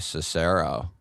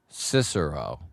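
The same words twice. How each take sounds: First: The stress is on the second syllable. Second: The stress is on the first syllable. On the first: The speaker calls it wrong. "What do I say?" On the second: The speaker calls it right. "with the accent on the first syllable, not the second"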